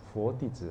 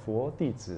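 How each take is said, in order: Both takes have the same delivery.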